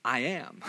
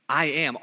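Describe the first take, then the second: First: Softer, hushed I am; solemn I am. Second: Said in the usual way. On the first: Retold or imitated. God answers Moses' question, hushed and solemn. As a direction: let "I am" land hushed and weighty. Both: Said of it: "And God says".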